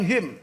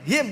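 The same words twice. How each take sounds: First: The final nasal sound is held too long. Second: The final nasal sound is kept short. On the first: The speaker calls it wrong. "bukan him" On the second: The speaker calls it right. "Artinya ayunihim nggak boleh panjang-panjang, gunahnya nggak boleh lama"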